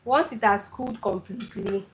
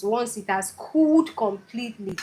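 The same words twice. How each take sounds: First: Said in the usual way. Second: Cooled completely pressed firmly, words held apart; emphasis landing on cooled completely; stress on cooled completely. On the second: Shown as a demonstration. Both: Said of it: "Emphasis on cooled completely".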